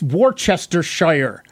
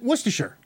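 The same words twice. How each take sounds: First: Every written syllable of the word is pronounced. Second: Some written syllables are dropped from the word. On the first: This is how the name is written. "It's Worcestershire" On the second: This is how local people say it. "everybody there pronounces it Worcestershire"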